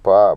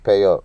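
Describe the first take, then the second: First: It is said with no y glide. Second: It is said with a y glide. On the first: This is how the speaker's own community says it. The speaker calls it right. "the Hebrew word we say pa" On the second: This is how another community says it. The speaker calls it wrong. "but they say pay up ... there's no even no uh, yod in there to get the Y sound, so it's just madness"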